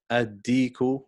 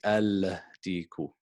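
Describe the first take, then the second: First: The L is dropped and the D is doubled. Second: The L sound is pronounced before the D. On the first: The speaker calls it right. "We say ad ad ad-diku" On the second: The speaker calls it wrong. "We don't say al-diku"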